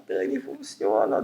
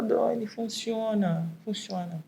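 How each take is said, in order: First: Much lower, slow and deliberate "Dani, funciona"; slow low-voiced assurance that it works; deep emphatic insistence. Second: Quieter, drawn-out "Dani, funciona" a little higher; soft, stretched-out insistence; softer slow repetition. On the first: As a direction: drop the voice low and lean on "funciona". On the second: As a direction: repeat it gently and slowly for emphasis. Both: Real, not acted. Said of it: "eu vou falar".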